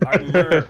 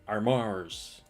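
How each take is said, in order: First: The second syllable is a plain, weak 'er'. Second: The second syllable is said like 'ours'. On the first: The speaker calls it right. "It's armor" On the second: The speaker calls it wrong. "That makes it sound like arm ours"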